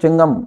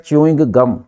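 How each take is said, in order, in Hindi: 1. यह एक छोटे शब्द में दबा कर बोला जाता है। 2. यह दो पूरे शब्दों की तरह बोला जाता है। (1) "वो चिंगम नहीं होता है" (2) "वो होता है च्यूइंग गम"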